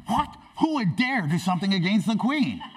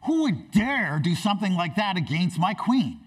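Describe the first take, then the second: First: High-pitched, feigned indignation echoing the king; mock shock. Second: Higher, indignant king's demand; shocked outrage. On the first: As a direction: parrot the outrage as a shocked villain. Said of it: "Haman is shocked". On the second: Acted. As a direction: thunder it as an outraged king, hammed up a little. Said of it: "Xerxes is shocked and outraged".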